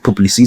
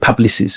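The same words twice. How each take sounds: First: The name is said in a French way. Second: The name is said in an anglicized way. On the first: This is how the company itself says it. "they pronounce it Publicis. It's a French advertising agency" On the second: This is how the staff locally say it. "We call it Publicis"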